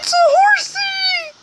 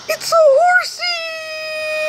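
First: Very high, squeaky cartoon squeal; tiny high-pitched squeak of joy; squeaky horsey voice. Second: Very high squeak, stretched out slowly; slow, drawn-out high squeal; drawn-out squeaky horsey voice. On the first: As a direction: squeal it like a delighted child. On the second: Acted. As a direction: squeal it slowly like a delighted child. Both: Excited at spotting a horse.

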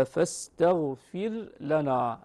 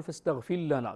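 First: فاستغفر لنا with the r and the lam kept apart, each said clearly; فاستغفر لنا with the lam pronounced clearly; clear lam, slow. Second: فاستغفر لنا said as فاستغفلّنا, the r merged into a doubled lam; فاستغفر لنا with the wrong merging. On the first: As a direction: slowly say فاستغفر لنا without merging the r into the lam. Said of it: "اللام مظهرة". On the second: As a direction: run فاستغفر لنا together, swallowing the r. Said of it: "لا نقول ... بإدغام". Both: Shown as a demonstration.

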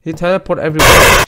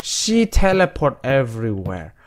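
First: He said loud and sharp; loud wrong take. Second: Said in the usual way. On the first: Real, not acted. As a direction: blurt out he teleport, loud. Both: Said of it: "Why do I keep pronouncing he as a she?".

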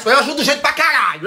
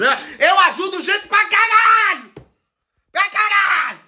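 First: Said in the usual way. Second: High, drawn-out boastful outburst; emphatic shout. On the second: Real, not acted. Vlogger insisting how many people they help, shouting emphatically. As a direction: shout it way up high, stretching the words.

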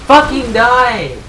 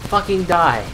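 First: Slow, loud, raised demand; pissed-off shout. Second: Said in the usual way. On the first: Real, not acted. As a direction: shout it slowly in real anger. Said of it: "I'm getting fucking pissed off now".

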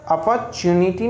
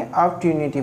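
First: अपॉर्चुनिटी as "a-par-chu-ni-ti", r sounded before chu; rejected pronunciation. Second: अपॉर्चुनिटी as "ap-tyu-ni-ti", ty in place of r-ch; recommended pronunciation. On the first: Teacher warning learners off a reading, अपॉर्चुनिटी as "apar-chuniti". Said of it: "अपॉर्चुनिटी नहीं पढ़ेंगे". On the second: Teacher settling the reading for learners, अपॉर्चुनिटी as "ap-tyuniti". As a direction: join p straight to "tyu" in अपॉर्चुनिटी. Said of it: "अपॉर्चुनिटी पढ़ेंगे". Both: Shown as a demonstration.

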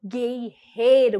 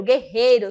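First: "guerreiro" drawn out, split into slow syllables; forceful emphasis. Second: "guerreiro" loud and in one piece; forceful, quicker repeat. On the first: Teacher showing the warrior's force, drawn-out "guerreiro". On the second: Teacher repeating the warrior word, loud compact "guerreiro". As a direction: say "guerreiro" louder, without stretching it. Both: Shown as a demonstration. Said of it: "a força pra mostrar o quanto ele é".

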